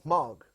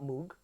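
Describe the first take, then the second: First: The vowel rhymes with 'rog'. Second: The vowel does not rhyme with 'rog'. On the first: The speaker calls it right. "You pronounce mog like mo- like rog" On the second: The speaker calls it wrong. "no, it's not Moog"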